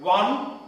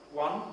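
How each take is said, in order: First: The numbers are shouted loudly. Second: The numbers are said at normal speaking volume. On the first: "The next step is to shout it" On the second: "The next step is to speak it"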